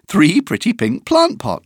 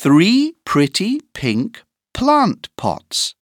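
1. La phrase est dite à une vitesse rapide. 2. La phrase est dite à une vitesse modérée.

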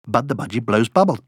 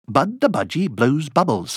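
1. La phrase est dite au rythme le plus rapide. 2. La phrase est dite à un rythme plus rapide. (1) "Encore plus vite!" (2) "plus vite!"

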